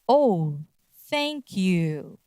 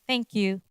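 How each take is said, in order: First: The pitch drops on 'you'. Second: The pitch stays level throughout.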